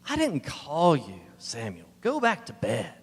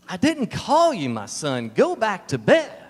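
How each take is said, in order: First: It is said in a groggy, sleepy voice. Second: It is said with a disgusted tone.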